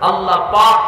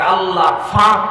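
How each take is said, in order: First: The second word begins with a p sound. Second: The second word begins with an f sound. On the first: "প পাবেন না" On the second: "মানে পাক শব্দটা ওরা বলতে পারে না"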